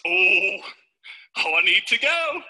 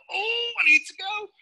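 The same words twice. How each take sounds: First: Mock urgency. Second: High, drawn-out "oh, I need to go"; hammed-up high-pitched toilet plea; mock desperate urge. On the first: Acts two ways of needing toilet. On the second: Second way of needing the toilet.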